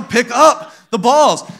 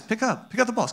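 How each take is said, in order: First: Loud, high, drawn-out mock order; exasperated. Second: Soft, higher-pitched coaxing; very nice. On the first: Parent who keeps repeating it to toddlers, exasperated. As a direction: stretch it out like a parent at wit's end. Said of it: "I'm gonna lose my mind". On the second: Retold or imitated. Parent starting cleanup time with the kids, very nice. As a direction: ask sweetly and softly, playing patient parent. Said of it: "I start off very nice".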